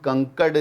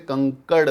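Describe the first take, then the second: First: The final consonant is a plain retroflex stop. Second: The final consonant is a quick retroflex flap. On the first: The speaker calls it wrong. "इसको हम कंकड़ नहीं बोल सकते" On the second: The speaker calls it right. "कंकड़ बोलेंगे"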